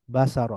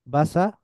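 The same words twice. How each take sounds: First: বাসার joined into one falling word, ba-sa-ro; blended together. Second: বাসার broken up as ba, sa, ro, rising before the last; syllable by syllable. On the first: Teacher reading joined-up, বাসার blended into one word. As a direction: run the syllables of বাসার together. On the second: Teacher breaking down the word, বাসার syllable by syllable. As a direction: spell out বাসার in separate syllables. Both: Shown as a demonstration. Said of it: "একটু মিলিয়ে মিলিয়ে পড়ব".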